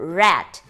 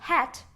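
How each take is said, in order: First: The word begins with a curled r sound. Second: The word begins with a breathy h sound. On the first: The speaker calls it right. "que é o mesmo R do interior" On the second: The speaker calls it wrong. "em vez de falar rat, a gente fala hat"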